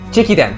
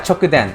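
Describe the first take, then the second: First: The word begins with the syllable 'chi'. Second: The word begins with the syllable 'cho'. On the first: The speaker calls it right. "Thank you" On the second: The speaker calls it wrong. "I'm probably saying it wrong"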